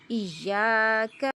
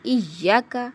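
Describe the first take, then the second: First: The vowel after the y is long. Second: The vowel after the y is cut short. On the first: The speaker calls it right. "या के साथ अलिफ मद है" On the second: The speaker calls it wrong. "किसी हरफ को कम कर देना"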